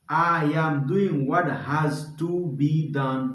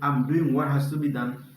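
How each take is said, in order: First: Each word is said fully and separately. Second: The words are run together and shortened.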